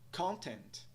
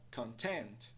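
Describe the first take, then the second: First: Both syllables carry stress. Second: Only the second syllable carries stress. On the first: "ambas são estressadas" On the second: "ela é estressada"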